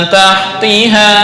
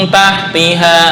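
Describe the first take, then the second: No difference in how they are said.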